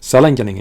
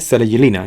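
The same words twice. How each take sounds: First: The name is pronounced with English sounds. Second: The name is pronounced with Spanish sounds. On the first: "en inglés" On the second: "en español"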